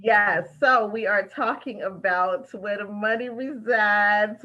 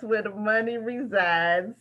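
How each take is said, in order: First: Drawn out, slow; the show's title line; slow title announce. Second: Slow, rising end; the title line again; slow title repeat. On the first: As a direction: spell out the title slowly. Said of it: "announces the show title". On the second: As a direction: echo the title with a lift. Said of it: "repeats the title". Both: Shown as a demonstration.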